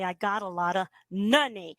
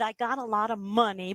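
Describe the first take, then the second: First: Money starts with a tongue N sound. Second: Money starts with a closed-lips M sound. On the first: "we're just going to use an N" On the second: "suppose we said"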